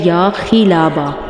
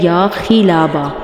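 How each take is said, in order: First: The vowel after kh is 'i'. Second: The same.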